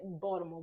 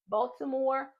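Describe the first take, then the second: First: It is said the local Baltimore way. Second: It is said the outsider, non-local way.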